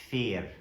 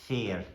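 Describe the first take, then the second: The two takes are said the same way.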